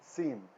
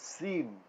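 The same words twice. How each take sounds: Both takes have the same delivery.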